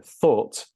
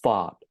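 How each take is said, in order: First: The vowel is a rounded 'or' sound. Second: The vowel is a broader 'ah' sound. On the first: "the vowel sound is the same" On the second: "They make more of a, a broader sound like ah"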